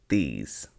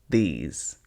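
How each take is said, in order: Both takes have the same delivery.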